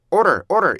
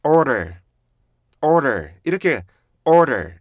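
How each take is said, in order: First: "order" run together as one loose word; wrong "order". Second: "order" with a long, strong first syllable falling away; stretched, falling "order" for learners; correct "order". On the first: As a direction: say "order" the way to avoid, with no break before the second syllable. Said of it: "이렇게 가면 안 돼요". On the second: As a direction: model "order" slowly, leaning on the first syllable. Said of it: "이렇게 가야 되는데". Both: Shown as a demonstration.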